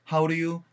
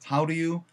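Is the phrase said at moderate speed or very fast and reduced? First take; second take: moderate; moderate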